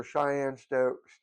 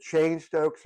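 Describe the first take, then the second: First: "Cheyenne" said in two syllables, like shy-ANN; "Cheyenne Stokes" with a two-syllable "Cheyenne"; alternative pronunciation. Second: "Cheyne" said as one syllable, like chain; "Cheyne Stokes" with a one-syllable "Cheyne"; first pronunciation variant. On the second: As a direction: say "Cheyne" to rhyme with rain, slowly. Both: Shown as a demonstration. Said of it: "different ways to pronounce the breathing patterns".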